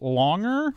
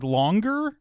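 First: No hard G is pronounced before the second syllable. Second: A hard G is pronounced before the second syllable. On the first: The speaker calls it wrong. "we don't say longer" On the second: The speaker calls it right. "you need that hard G sound"

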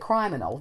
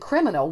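First: The first vowel is long. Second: The first vowel is short. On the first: "we do not say criminal" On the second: "in criminal"

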